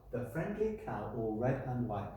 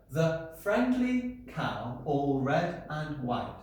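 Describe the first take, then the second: First: Said in the usual way. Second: "The friendly cow, all red and white" said very slowly, each syllable tapped out; beating out syllables. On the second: Shown as a demonstration. Teacher marking syllables on the board, very slow and beat by beat. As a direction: count each syllable out as you say it. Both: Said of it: "I'm gonna mark these".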